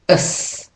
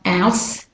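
First: The ending has a weak schwa vowel. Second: The ending has a full vowel sound. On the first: The speaker calls it right. "it's us" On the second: The speaker calls it wrong. "So it's not ous"

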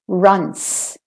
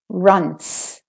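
First: The final sound is a hissing unvoiced S. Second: The final sound is a hissing unvoiced S.

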